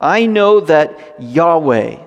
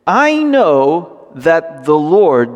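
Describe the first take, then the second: First: Yahweh said as YAH-way, slow and deliberate; reading Yahweh slowly and deliberately; slow emphatic reading. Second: Slow emphatic reading. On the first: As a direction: lean on Yahweh in place of Lord. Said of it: "it's Yahweh". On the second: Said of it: "the word right there for Lord". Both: Shown as a demonstration.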